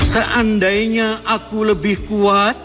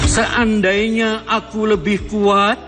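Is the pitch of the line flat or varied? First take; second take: varied; varied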